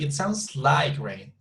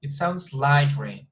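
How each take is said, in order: First: The strongest stress falls on the word like. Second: The same.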